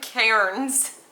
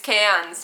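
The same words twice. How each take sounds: First: The word is said with an r sound. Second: The word is said without an r sound. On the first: This is how it reads from the spelling. The speaker calls it wrong. "not Cairns" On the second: This is how locals say the place name. The speaker calls it right. "it's Cairns"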